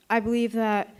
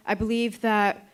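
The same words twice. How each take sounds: The two takes are said the same way.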